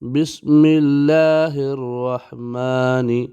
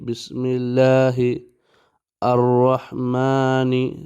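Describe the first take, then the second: First: The words are joined, dropping the 'a' sound. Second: The words are said separately, keeping the 'a' sound.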